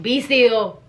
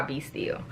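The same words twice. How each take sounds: First: Said in the usual way. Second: "be still" whispered, voiceless and soft. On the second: Shown as a demonstration. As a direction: breathe "be still" in a hushed whisper. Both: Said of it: "what does he mean by".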